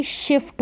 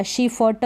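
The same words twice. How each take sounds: First: "शिफ्ट" as one syllable, shift; half f joined to t in "शिफ्ट"; correct blended reading. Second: "शिफ्ट" broken into shi-fa-ta; full vowels after f and t in "शिफ्ट"; wrong split reading. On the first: Teacher giving beginners the right reading, "शिफ्ट" blended as shift. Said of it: "शिफ्ट हो गया". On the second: Teacher warning beginners off a wrong reading, "शिफ्ट" as shi-fa-ta. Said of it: "शिफ्ट नहीं पढ़ेंगे". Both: Shown as a demonstration.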